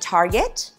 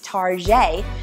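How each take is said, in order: First: The name is said in an ordinary, plain way. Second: The name is said in a fancy, posh-sounding way. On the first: "Whether you pronounce it Target" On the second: "for some of you fancy schmancy people who pronounce it Target"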